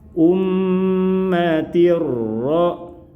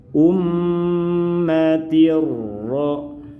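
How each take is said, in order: Both takes have the same delivery.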